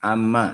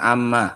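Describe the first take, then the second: No difference in how they are said.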